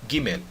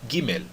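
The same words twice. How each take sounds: The two takes are said the same way.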